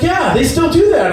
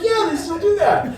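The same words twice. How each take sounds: First: Said in the usual way. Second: High, laughing repeat. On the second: Retold or imitated. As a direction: say it again through a giggle.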